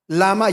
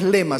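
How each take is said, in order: First: The first vowel is an 'a' sound. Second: The first vowel is an 'e' sound. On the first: The speaker calls it right. "se pronuncia lama" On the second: The speaker calls it wrong. "no es lema"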